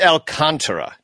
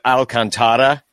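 First: The stress is on the second syllable, can. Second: The stress is on the third syllable, ta. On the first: The speaker calls it right. "it is Alcantara, just so everybody Knows, because there is an accent mark there" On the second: The speaker calls it wrong. "I hear a lot of people Alcantara, which normally the second to last syllable is going to get your accent, but not here"

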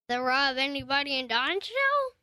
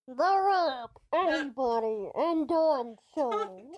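First: The voice is clear with an uncovered mouth. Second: The voice is muffled behind a covered mouth.

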